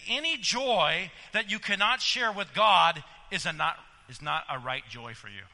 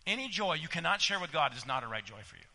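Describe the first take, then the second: First: Said in the usual way. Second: Brisk, softer run-through of "Any joy you cannot share"; fast quiet restatement. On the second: Acted. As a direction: rattle it off again, low and quick. Repeating the Spurgeon quote.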